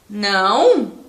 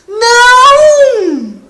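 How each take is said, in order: First: It is said as a puzzled question. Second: It is said as an urgent warning shout. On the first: The speaker is asking why. "num sentido assim de é, pergunta" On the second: The speaker is warning of danger. "se eu for alertar alguém para um perigo"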